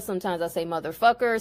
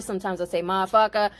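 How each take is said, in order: First: "motherfucker" said evenly and fully, every syllable clear; measured inflection. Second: "motherfucker" tossed off fast and slurred as "mafucka"; breezy, fast "motherfucker" squeezed into two beats; quick clipped inflection. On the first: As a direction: lean on "motherfucker" in a steady, deliberate way. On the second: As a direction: rattle it off, "motherfucker" swallowed. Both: Shown as a demonstration. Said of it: "the intonation and the inflection on the word motherfucker".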